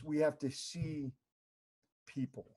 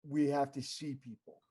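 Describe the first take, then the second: First: The word 'see' is said with strong emphasis. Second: The word 'see' is said plainly, without emphasis. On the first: Truly seeing and acknowledging people. "but he said it like this" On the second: Noticing people in passing. "he said"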